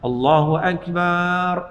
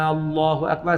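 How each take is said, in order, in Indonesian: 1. Vokal terakhir pada akbar dibaca panjang. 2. Vokal A di awal dibaca panjang. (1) "akbar tak dipanjang ... tak boleh" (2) "Jangan panjangkan A. ... salah"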